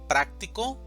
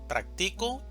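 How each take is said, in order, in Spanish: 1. El acento está en la primera sílaba. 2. El acento está en la segunda sílaba.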